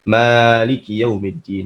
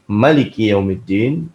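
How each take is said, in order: First: The first vowel of Maliki is long. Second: The first vowel of Maliki is short. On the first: It means owner. "juga bisa dibaca panjang" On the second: It means king. "bisa dibaca pendek"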